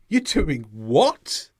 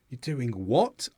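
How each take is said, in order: First: It sounds astonished and surprised. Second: It sounds disapproving and critical. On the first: The listener is surprised by the news. "There, you're showing surprise" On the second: The listener disapproves of the plan. "If you say it in a dis disapproving way"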